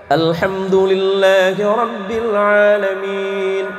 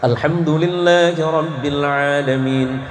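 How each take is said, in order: First: It is recited slowly and carefully. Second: It is recited a bit faster. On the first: "Itu namanya tartil" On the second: "agak cepat dikit"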